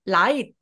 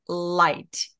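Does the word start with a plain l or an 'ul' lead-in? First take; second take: plain; lead-in. First: The word starts directly with a plain l. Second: A short 'ul' sound leads into the l. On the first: The speaker calls it wrong. "light가 아니라" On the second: The speaker calls it right. "을이라고 소리를 앞에 시동을 걸어주시면 됩니다"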